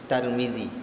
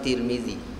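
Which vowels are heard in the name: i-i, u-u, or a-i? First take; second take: a-i; i-i. First: The first two syllables have the vowels 'a' and 'i'. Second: The first two syllables have the vowels 'i' and 'i'. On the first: "bahasa Melayu dia lebih berminat dengan mengguna Tarmizi" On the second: "Ada yang boleh baca tiga"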